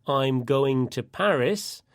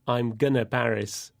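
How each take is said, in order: First: Going to is said as two full words. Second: Going to is squeezed into the short form gonna. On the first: The speaker calls it right. "If you say, I'm going to Paris" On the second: The speaker calls it wrong. "you can't use gonna to say"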